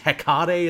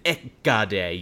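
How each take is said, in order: First: The word begins with an H sound. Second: The word begins without an H sound.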